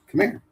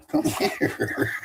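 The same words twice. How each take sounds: First: High dog call. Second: High laughing come here, breaking into a laugh; much higher call, laughing at the dog. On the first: Calling the dog again. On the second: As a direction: coax the dog through a laugh. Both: Real, not acted.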